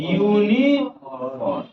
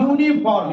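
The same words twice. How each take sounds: First: यूनिफॉर्म drawn out slowly, letter by letter as written; wrong spelling-style reading. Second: Said in the usual way. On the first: Shown as a demonstration. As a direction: read यूनिफॉर्म slowly as it is spelt, the way not to say it. (यूनिफॉर्म को लिखे हुए की तरह धीरे-धीरे खींचकर पढ़ना) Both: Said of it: "ये ना बोलिएगा".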